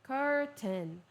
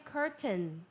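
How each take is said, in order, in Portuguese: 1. O T do meio é pronunciado claramente. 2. O T do meio é pronunciado claramente.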